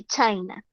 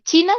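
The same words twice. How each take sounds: First: "China" said the English way, CHAI-nah; English pronunciation. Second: Said in the usual way. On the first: Shown as a demonstration. Teacher giving students the English country name, "China" in English pronunciation. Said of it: "se dice China". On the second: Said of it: "en inglés".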